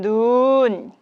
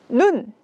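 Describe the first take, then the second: First: The vowel is held long. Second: The vowel is held short. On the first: It means falling snow. "길게 이야기를 할 수 있도록 합니다" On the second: It means the eye. "신체에 있는 눈은 짧게 이야기를 하고요"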